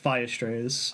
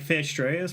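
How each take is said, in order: First: The first word sounds like 'fire'. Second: The first word sounds like 'fear'. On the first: The speaker calls it right. "I think it's meant to be like Fire Strayers" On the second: The speaker calls it wrong. "I've always called it like Fear Strayers"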